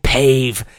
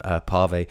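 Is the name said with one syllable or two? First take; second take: one; two. First: The name is said as one syllable. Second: The name is said as two syllables. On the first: The speaker calls it wrong. "I saw the accent, I guess I just ignored it" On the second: The speaker calls it right. "it should have been Pave"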